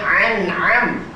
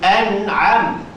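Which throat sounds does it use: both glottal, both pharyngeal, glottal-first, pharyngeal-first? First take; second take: both pharyngeal; glottal-first. First: Both consonants are pharyngeal. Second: A glottal stop first, then a pharyngeal consonant. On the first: The speaker calls it wrong. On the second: The speaker calls it right.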